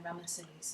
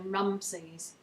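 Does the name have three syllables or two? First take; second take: three; two. First: The name is said with three syllables. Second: The name is said with two syllables. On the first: This is how British people say it. "more typically British... We put an extra vowel in" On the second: This is how Americans say it. "heard Americans say"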